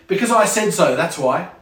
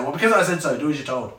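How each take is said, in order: First: Bossy parent. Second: Dismissive parent. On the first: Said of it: "this is illogical". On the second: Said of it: "So they just say". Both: Acted.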